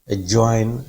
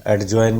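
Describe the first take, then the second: First: "एडजॉइन" with silent d, a-join. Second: "एडजॉइन" with an audible d, ad-join; D pronounced. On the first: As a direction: drop the d in "एडजॉइन". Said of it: "डी silent होता है". ("एडजॉइन" में ड चुप, अजॉइन) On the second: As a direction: sound the d before j in "एडजॉइन". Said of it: "नहीं होता". ("एडजॉइन" में ड बोलकर, ऐड-जॉइन) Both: Shown as a demonstration.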